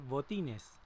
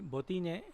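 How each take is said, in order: First: The final s sound is pronounced. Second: The final s sound is dropped.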